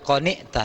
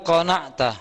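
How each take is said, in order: First: The vowel after the n is 'i'. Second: The vowel after the n is 'a'. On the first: "bi kasrin nun" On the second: "Qana'a yaqna'u"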